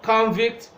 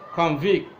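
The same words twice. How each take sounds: First: The stress is on the first syllable. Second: The stress is on the second syllable. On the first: It is used as a noun. "When it is a noun" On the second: It is used as a verb. "When it is a verb"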